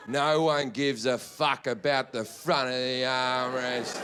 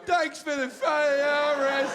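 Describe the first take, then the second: First: Low, slow, drawn-out disdain; scornful rant. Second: High, squealing mock thanks; mock gratitude. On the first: Acted. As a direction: stretch it out low with heavy contempt. Acted rant at seatmate over armrest. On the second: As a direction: imitate absurdly delighted thanks in a high voice. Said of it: "No one's ever gone".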